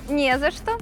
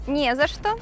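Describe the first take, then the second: No difference in how they are said.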